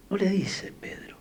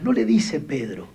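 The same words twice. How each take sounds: First: No le dice Pedro whispered, voiceless. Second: Said in the usual way. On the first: Shown as a demonstration. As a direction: whisper the line as an emphatic aside. (susurro enfático: no le dice Pedro)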